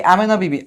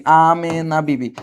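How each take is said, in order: First: Said in the usual way. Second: Amena Bibi drawn out slowly, syllable by syllable; Amena Bibi at half speed; slow repeat. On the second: Shown as a demonstration. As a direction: stretch each vowel of Amena Bibi for the class.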